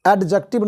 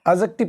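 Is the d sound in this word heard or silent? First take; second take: heard; silent. First: The d sound is clearly pronounced. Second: The d sound is left out. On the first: The speaker calls it wrong. "एडजेक्टिव नहीं पढ़ेंगे" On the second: The speaker calls it right. "डी silent होता है इसमें"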